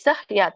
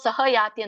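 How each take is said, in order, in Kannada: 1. h ಹಗುರವಾಗಿದೆ, ಅದರ ನಂತರ ಸ್ವರ ಇಲ್ಲ. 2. h ನ ನಂತರ ಪೂರ್ಣ ಸ್ವರ ಬರುತ್ತದೆ. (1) "ಸ್ವಲ್ಪ ಹ ಉಚ್ಚಾರಣೆ" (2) "ನಾವು ಸಹ ಯಾತಿ ಅಂತ ಅನ್ನಂಗಿಲ್ಲ"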